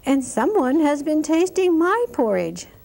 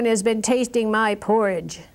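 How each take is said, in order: First: It is said in a middle-sized voice. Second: It is said in a great big voice.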